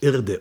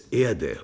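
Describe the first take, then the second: First: The first vowel sounds like 'i'. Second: The first vowel sounds like 'e'. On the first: This is the other planet's form. The speaker calls it wrong. "und nicht Irde" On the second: This is the speaker's home form. The speaker calls it right. "bei uns heißt es Erde"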